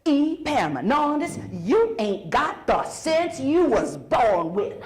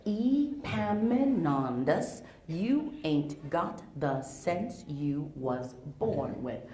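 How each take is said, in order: First: Mildly scolding mama, slow; a hint of mama with hands on hips. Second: Slow, softer mama scolding; mama's line repeated more quietly for kids; scolding mama, quieter. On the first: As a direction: slowly lay into him like a fed-up mother. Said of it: "she puts her hands on her hips and she says". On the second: Retold or imitated. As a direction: drag out the scold, low and deliberate. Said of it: "What she says is".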